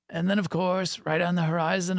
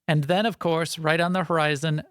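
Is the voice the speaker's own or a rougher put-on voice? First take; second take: rougher; own. First: It is said in a rougher, put-on voice. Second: It is said in the speaker's ordinary voice.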